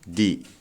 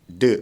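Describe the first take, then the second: First: The word ends in a long 'ee' vowel. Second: The word ends in a short 'uh' vowel. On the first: A vowel follows the word. "Kalau di sini vokal, ... di sini bacanya di" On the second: A consonant follows the word. "kenapa the? Karena di sininya kon konsonan"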